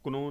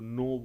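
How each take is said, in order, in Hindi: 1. शब्द k ध्वनि से शुरू होता है। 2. शब्द n ध्वनि से शुरू होता है। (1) "हम क्नो नहीं बोल सकते" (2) "के एन ओ डब्ल्यू नो बोलते हैं, बिकॉज ईयर के इज साइलेंट"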